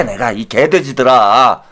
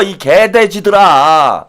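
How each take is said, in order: First: Low mock insult. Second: Slow mock insult. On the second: Insult repeated slowly.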